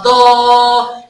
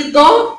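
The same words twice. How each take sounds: First: ضا with the aa stretched out; drawn-out ضاااا; long alif vowel. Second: ضا with a short, unstretched a; short vowel. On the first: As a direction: hold the vowel of ضا long and level. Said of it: "لو عندي مد بالالف". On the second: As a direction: say ضا briefly, without holding the vowel. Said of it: "حركه قصيره ما مدتش". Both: Shown as a demonstration.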